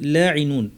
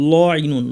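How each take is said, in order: First: The l sound is light and thin. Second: The l sound is heavy and dark. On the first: The speaker calls it right. "ল ইনুন না" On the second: The speaker calls it wrong. "অনেকে ভুল করে বলে ফেলবেন ল ইনুন"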